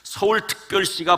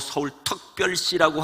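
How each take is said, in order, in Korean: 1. 모든 소리가 또렷하게 발음돼요. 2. 소리가 뭉개져서 혀 짧은 발음처럼 들려요.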